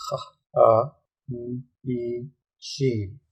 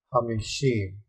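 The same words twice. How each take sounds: First: "ha, a, m, e, shim" in separate pieces; syllable by syllable. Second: Said in the usual way. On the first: Shown as a demonstration. Teacher reading Hebrew to learners, "ha, a, m, e, shim" broken into syllables. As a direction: sound out "ha, a, m, e, shim" with gaps between syllables.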